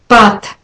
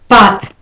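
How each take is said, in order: No difference in how they are said.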